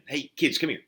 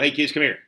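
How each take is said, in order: First: It is said warmly, drawing the listener in. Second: It is said casually, without much feeling.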